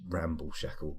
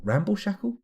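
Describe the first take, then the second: First: Said in the usual way. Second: High, rising self-doubting question; high-pitched baffled echo; incredulous query. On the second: Real, not acted. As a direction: query your own slip in disbelief. Questions own slip of the tongue.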